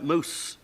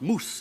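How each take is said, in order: First: The vowel glides from ah toward oo. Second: The vowel is a long pure oo sound. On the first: This is the newer pronunciation after the vowel shift. "began to change to something like mouse" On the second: This is the older pronunciation before the vowel shift. "had been pronounced moose"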